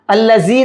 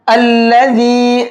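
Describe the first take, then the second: First: अल्लज़ी said with a hard z carrying a whistle; wrong hissing z. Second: अल्लज़ी with a soft dh (th of "this"), no z; soft dhal. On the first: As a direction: say अल्लज़ी the wrong way, zay instead of dhal. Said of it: "अल्लज़ी नहीं पढ़ेंगे". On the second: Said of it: "जाल को बहुत soft करके पढ़ेंगे". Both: Shown as a demonstration.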